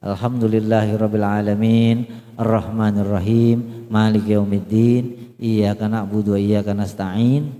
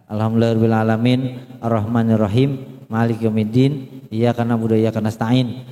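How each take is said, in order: First: Low recitation with final vowels lengthened a little; measured reading, last syllable of each line held; gently swung endings. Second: Hurried recitation, no sway on line endings; plain low reading with endings cut short; wrongly short endings. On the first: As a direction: let each verse ending sway slightly. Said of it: "Diayunlah dikit gitu ya". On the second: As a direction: rattle the verses off, clipping final long vowels. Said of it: "Belakangnya salah". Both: Shown as a demonstration.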